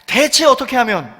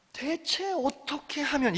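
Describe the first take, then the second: First: More earnest. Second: Softer, slower earnest. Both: Shown as a demonstration. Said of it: "조금만 더 간절하게".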